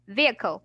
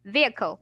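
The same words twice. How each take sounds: First: The h sound is silent in the middle. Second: The h sound is silent in the middle.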